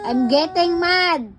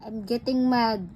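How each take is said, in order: First: Slow, emphatic, raised-voice warning; mock-angry warning. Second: Contained, mildly cross warning; restrained warning. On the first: Parent warns child who hit her, mock-angry warning. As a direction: stretch it out as a louder scolding. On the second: Pretend. Parent warns child who hit her, restrained warning.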